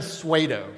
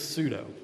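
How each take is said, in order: First: The first syllable sounds like 'suede'. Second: The first syllable sounds like 'sue'. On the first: The speaker calls it wrong. "Like blue suede shoes" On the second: The speaker calls it right. "it's pseudo"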